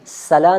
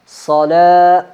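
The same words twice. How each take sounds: First: The s sound is thin, like a plain s. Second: The s sound is heavy and thick. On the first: The speaker calls it wrong. "दांतों को आपस में लगाए जैसे सीन की आवाज़, ऐसे नहीं" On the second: The speaker calls it right. "मोटा"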